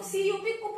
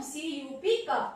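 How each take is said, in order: First: कुप with an "oo" vowel after spelling it; wrong u reading. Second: कप with a short "uh", spelt out slowly first; correct short u. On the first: Teacher showing what not to read, wrong u reading. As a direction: spell it, then say कुप, like "koop". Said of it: "कुप नहीं पढ़ेंगे". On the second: Teacher giving pupils the right reading, correct short u. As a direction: spell slowly, then say कप as "kup" with "uh". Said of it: "अ का sound आ रहा है". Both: Shown as a demonstration.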